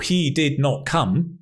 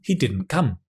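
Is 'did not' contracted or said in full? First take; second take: full; contracted. First: Both words 'did' and 'not' are said in full. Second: The two words merge into one contracted word. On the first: "instead of listening for he did not come" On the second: "You can hear the didn't"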